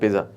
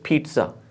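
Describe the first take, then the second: First: The middle consonant has no t sound. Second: The middle consonant begins with a t sound. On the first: The speaker calls it wrong. "Not पिज्जा" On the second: The speaker calls it right. "पहले को टी पढ़ना है, दूसरे को जी पढ़ना है। This is पिज्जा"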